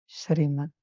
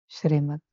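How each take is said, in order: Both takes have the same delivery.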